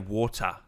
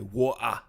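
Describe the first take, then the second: First: The T sound in the middle is clearly pronounced. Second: The T sound in the middle is dropped. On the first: The speaker calls it wrong. "You don't say the T. You don't say water" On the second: The speaker calls it right. "You say water. That's the key to getting that voice down"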